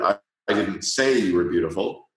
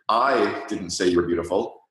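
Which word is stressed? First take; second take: say; I. First: The stress falls on "say". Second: The stress falls on "I". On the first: "or the third word" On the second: "put the emphasis on the first word"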